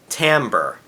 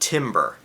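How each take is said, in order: First: The word is said like 'tamber'. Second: The word is said like 'timber'. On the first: The intended musical term was said. The speaker calls it right. "she meant timbre, spelled differently and pronounced differently" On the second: A different word was said by mistake. The speaker calls it wrong. "they mispronounced a musical word"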